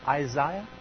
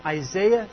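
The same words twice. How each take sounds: First: Imitated British "Isaiah", middle syllable like "eye"; British accent. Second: Said in the usual way. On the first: Preacher imitating a scripture reader's British accent. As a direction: say "Isaiah" as eye-ZYE-uh, mimicking British English. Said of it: "with that wonderful British accent". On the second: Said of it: "with that wonderful British".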